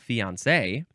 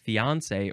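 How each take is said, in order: First: The stress falls on the last syllable. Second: The stress falls before the last syllable. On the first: "emphasize the last syllable" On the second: "you can emphasize the on fiance"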